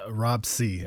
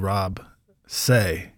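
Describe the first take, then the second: First: The surname sounds like the letter C. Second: The surname sounds like the word say. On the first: The speaker calls it right. "I've been like the letter C" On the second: The speaker calls it wrong. "they refused to call me by my pronounce it the correct way"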